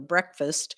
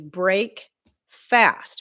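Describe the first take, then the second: First: The first part sounds like brek, run together. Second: The first part sounds like brake, said separately. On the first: The everyday name for the morning meal. "we pronounce it breakfast" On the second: Ending the overnight fast. "it's actually break fast"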